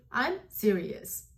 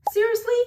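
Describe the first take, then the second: First: "I'm serious" slow, dropping to a statement; falling intonation. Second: "Seriously?" high and louder, going up; rising intonation. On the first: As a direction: let I'M SERIOUS settle downward slowly. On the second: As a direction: throw SERIOUSLY up high as a question. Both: Shown as a demonstration. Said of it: "how the tone goes".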